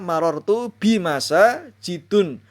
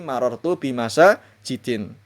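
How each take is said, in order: First: The last word ends in un. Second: The last word ends in in. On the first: "Tidak boleh dibaca"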